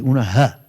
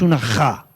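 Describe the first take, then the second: First: The J is pronounced as in Cádiz. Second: The J is pronounced as in Jaén. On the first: The speaker calls it right. "es como una J de Cádiz" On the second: The speaker calls it wrong. "no como una J de Jaén. No es una ja"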